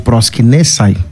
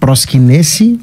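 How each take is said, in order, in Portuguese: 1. A palavra termina com som de 'eye'. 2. A palavra termina com som de 'ee'. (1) "grego é, koine" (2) "grego moderno"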